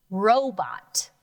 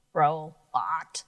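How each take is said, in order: First: Said in the usual way. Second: "Robot" dropped lower with a rising end; lower take. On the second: Shown as a demonstration. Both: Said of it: "Let's try this word".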